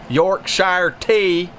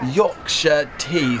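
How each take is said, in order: First: It is said in an American Southern accent. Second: It is said in an English accent. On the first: "That's how they'd say it here in the South" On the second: "But I think that it would probably be pronounced something like"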